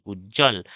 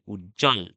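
First: উজ্জ্বল said louder, with a clearly voiced, doubled জ; clear pronunciation demo. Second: Said in the usual way. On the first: Shown as a demonstration. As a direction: punch the জ in উজ্জ্বল like a teacher. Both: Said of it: "বর্গীর জর একটা উচ্চারণ আছে".

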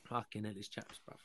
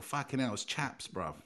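First: Mock cold, whispered; hushed, shivering mock complaint about the cold. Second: Mock cold complaint. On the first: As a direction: whisper it as if freezing. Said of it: "only say chaps when it's cold". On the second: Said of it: "You go".

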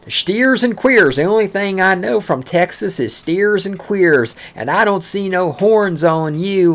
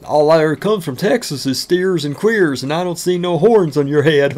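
First: Slow, louder mock Texan taunt, higher pitched. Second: Put-on voice of a sneering Coloradan, a bit louder; mimicking a taunter. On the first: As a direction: sneer it the way the locals used to. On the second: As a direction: toss it off like a smug local jab. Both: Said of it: "You know how many times I fucking heard that?".

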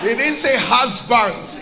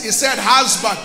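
First: "husbands" stressed with its final s sounded; stress on plural. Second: "husband" stressed, ending without an s; stress on singular. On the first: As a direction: set up "husbands" as the rejected plural form. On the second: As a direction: land firmly on "husband" as the correct singular. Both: Shown as a demonstration.

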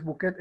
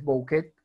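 First: Bouquet said buquet, with u only; plain u in bouquet; everyday pronunciation. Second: Bouquet said bo-u-quet; corrected vowel pair. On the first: Teacher quoting the form to correct, said buquet. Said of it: "no es bouquet". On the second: Teacher correcting bouquet for students, sounding bo-u-quet. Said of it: "es bouquet". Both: Shown as a demonstration.

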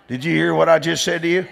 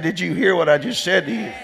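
First: Said in the usual way. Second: Insistent repeat with a rising hear; repeated for emphasis. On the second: Real, not acted. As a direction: ask it again, pressing every word. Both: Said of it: "I said".

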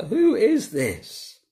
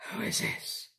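First: High, drawn-out astonished question; retold awed fear. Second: Hushed, voiceless whisper; barely audible, acting out stunned wonder; awed whisper. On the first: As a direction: ask it slowly in mock alarm, pitched up. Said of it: "They were terrified and asked each other". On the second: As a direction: whisper it in retold astonishment. Retelling the disciples' stunned question.

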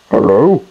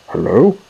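First: Louder hello, lightly voiced little car; a hint of a little car piping up. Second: Tentative hello with a questioning lift; a touch of nerves on the greeting; nervous. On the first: Little car answers its visitors, lightly voiced. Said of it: "said a little car". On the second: Massey greets whatever is in the shed, nervously. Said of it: "said Massey nervously". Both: A narrator's reading.

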